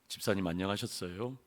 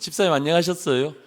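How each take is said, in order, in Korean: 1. 이 인사는 낮고 평평한 음으로 말합니다. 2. 이 인사는 음을 올려서 밝게 말합니다.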